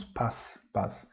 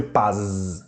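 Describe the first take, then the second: First: "paz" ending in a soft hissed s; devoiced final Z. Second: "paz" with a long buzzing z at the end; voiced final Z. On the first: Teacher shows how we really say it, "paz" ending in s. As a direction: say "paz" with z turned to voiceless s. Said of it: "a letra Z perde a sua sonoridade". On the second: Teacher shows how it is written, "paz" ending in buzzed z. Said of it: "mas não falamos assim". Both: Shown as a demonstration.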